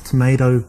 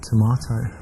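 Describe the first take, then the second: First: Said in the usual way. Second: Tomato said tuh-MAH-toe, British broad a. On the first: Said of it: "with my English accent". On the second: Shown as a demonstration. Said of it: "with my English accent, tomato".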